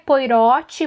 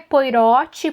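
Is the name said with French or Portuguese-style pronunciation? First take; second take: Portuguese; Portuguese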